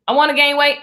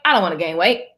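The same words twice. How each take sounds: First: Lifted pitch, mock-insistent wanting; mock eager wish. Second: Dropped lower, dismissive about-face; mock refusal. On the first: Acting out flip-flop energy, mock eager wish. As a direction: punch it up as the wanting side. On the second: Acting out flip-flop energy, mock low refusal. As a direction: drop down for the contrary side.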